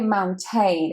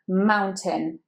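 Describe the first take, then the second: First: The last syllable sounds like full 'tain'. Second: The last syllable sounds like reduced 'tin'. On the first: The speaker calls it wrong. "So you don't want to say mountain" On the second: The speaker calls it right. "it's actually tin. Forget the A"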